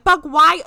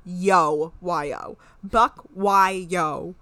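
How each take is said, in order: First: "Buck, why" called out high and loud; mock hyped reply. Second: "Buck, why, yo" in separate, evenly placed words; deliberate readout. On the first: Imitating his reply in the back-and-forth, "Buck, why" hammed up loud. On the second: Shown as a demonstration. Reading the Hulu caption to the co-host, "Buck, why, yo" said deliberately. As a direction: spell it out word by word: "Buck, why, yo".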